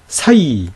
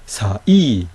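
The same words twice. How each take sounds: First: 사이 in one long joined glide; slow 사이, no break between vowels; diphthong as one. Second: 사, short gap, then stressed 이; vowels separated. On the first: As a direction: slide from 사 straight into 이. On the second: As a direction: break 사이 into two syllables. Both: Shown as a demonstration. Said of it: "분명히 다르죠?".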